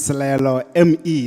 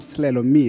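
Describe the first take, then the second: First: The surname does not sound like English 'me'. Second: The surname sounds like the English word 'me'. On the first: The speaker calls it right. "My name is" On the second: The speaker calls it wrong. "not Slelo me"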